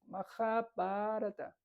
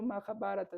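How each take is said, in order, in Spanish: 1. Algunas de sus vocales se alargan. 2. Todas sus vocales se dicen breves. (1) "se alargan algunas palabras" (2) "no se dice"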